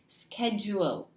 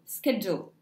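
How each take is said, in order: First: The ending is drawn out into two syllables. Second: The ending is one very short syllable. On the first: "as if there are two vowels at the end, two syllables" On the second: "a shorter version with ul ... very short"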